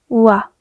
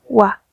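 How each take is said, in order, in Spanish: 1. La vocal empieza con sonido u. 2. La vocal empieza con sonido u.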